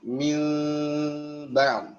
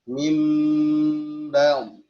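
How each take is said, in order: First: The lips leave a small gap on the m. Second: The lips close softly together on the m. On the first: "pengucapan iklab mil ba'd, ya furjah menyisakan celah" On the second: "Bibir atas sama bibir bawah bersentuh uh, dengan lunak"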